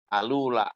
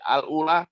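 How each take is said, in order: First: The vowel moves onto the l, no glottal stop. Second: A glottal stop separates 'al' from the word.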